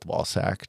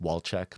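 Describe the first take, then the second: First: The name ends with a 'sack' sound. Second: The name ends with a 'check' sound. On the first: The speaker calls it wrong. "I'm just gonna go with Walsack just to call him Ballsack" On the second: The speaker calls it right. "I think it's actually pronounced Walcheck"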